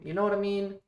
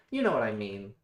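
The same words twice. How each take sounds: First: High, loud, pleading question; exasperated plea. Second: Loud, falling, stressed on "You"; emphatic insistence. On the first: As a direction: throw it up high, begging to be understood. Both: Real, not acted.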